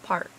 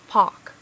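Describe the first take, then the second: First: It is said without a British accent. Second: It is said with a British accent. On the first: "instead of park" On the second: "my sister and I will say park"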